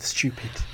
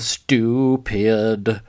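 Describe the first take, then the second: First: The word is pronounced clearly and crisply. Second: The word is slurred and poorly enunciated. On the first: This is how the word should be said. The speaker calls it right. "no, it's stupid, love, stupid" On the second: This imitates someone else's irritating delivery. The speaker calls it wrong. "the way she says stupid at one point, and it drives me insane"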